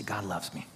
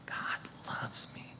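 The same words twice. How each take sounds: First: Said in the usual way. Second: Very soft, slow whisper. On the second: Shown as a demonstration. Preacher shows another inflection, slow whisper. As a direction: let each word linger in a whisper. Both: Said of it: "Say it in different inflections".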